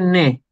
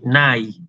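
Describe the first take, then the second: First: The vowel is a single plain e sound. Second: The vowel is a gliding a-i diphthong. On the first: "en griego moderno se dice ne" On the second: "El diptongo se pronuncia con la digamos, a, i"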